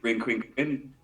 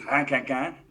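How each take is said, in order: First: The name is said with English vowels as spelled. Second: The name is said with French vowels and soft R. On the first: "if you're saying it as it's spelled" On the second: "if you're pronouncing it correctly"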